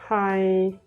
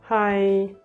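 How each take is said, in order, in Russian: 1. Тон ровный от начала до конца. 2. Тон ровный от начала до конца.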